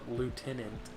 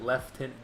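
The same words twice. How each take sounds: First: It is said without an f sound. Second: It is said with an f sound. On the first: "it's spelt lieutenant" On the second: "they pronounce it lieutenant. They add an F in there"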